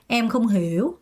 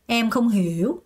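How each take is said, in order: The two takes are said the same way.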